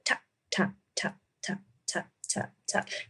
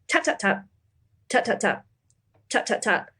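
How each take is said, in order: First: The taps come in an even, steady beat. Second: The taps come in an uneven, irregular beat. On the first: The speaker calls it right. "you're supposed to keep like a steady rhythm" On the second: The speaker calls it wrong. "And I kept going"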